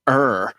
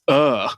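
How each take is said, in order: First: It is said with an American R sound. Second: It is said British style without an R.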